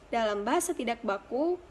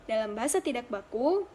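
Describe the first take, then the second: The two takes are said the same way.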